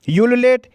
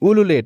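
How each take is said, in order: First: The word begins with a 'yoo' sound. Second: The word begins with an 'oo' sound. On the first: "इसको हम दोनों ही तरीके से pronounce करते हैं" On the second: "इसको हम दोनों ही तरीके से प्रोनाउंस करते हैं"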